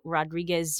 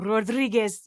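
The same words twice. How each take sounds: First: The name is said hesitantly and uncertainly. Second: The name is said with exaggerated, overdone pronunciation. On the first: The speaker is honestly trying to get it right. The speaker calls it right. "struggling to say, like, I don't know" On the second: The speaker is making a joke of the name. The speaker calls it wrong. "overpronounce it"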